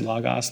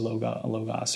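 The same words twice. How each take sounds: First: The first vowel is an 'ah' sound. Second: The first vowel is not an 'ah' sound. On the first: The speaker calls it right. "Omicron is the ah sound, so Logos should be said Logos" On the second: The speaker calls it wrong. "not Logos or Logos"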